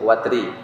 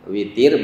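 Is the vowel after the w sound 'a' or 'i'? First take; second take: a; i. First: The vowel after the w is 'a'. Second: The vowel after the w is 'i'. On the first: "Boleh juga wawunya di fathah" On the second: "dengan dikasrohkan huruf waw"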